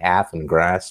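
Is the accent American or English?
American. It is said in an American accent.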